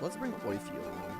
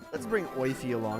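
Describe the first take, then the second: First: It is said in a Mickey Mouse voice. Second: It is said in his normal voice.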